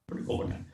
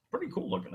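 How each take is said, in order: First: Whispered echo of the line; whispered aside to himself; whispered repeat. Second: Said in the usual way. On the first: Shown as a demonstration. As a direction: breathe it out as a whisper.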